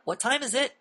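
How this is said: The voice rises at the end, like a question. The speaker is unsure of what they are saying. The speaker calls it wrong. "when you raise your voice at the end, it becomes a question"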